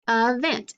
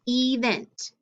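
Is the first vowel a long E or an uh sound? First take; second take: uh sound; long E. First: The first vowel is a weak uh sound. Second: The first vowel is a long E sound. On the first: The speaker calls it right. "It makes that schwa sound, the uh sound" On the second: The speaker calls it wrong. "that E should be long"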